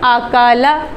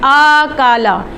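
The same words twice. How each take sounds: First: The opening vowel is kept short and plain. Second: The opening vowel is stretched out long. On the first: The speaker calls it right. "मारूफ तरीके से पढ़ना है" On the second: The speaker calls it wrong. "हमजा को मद की तरह लंबा करके पढ़ देते हैं"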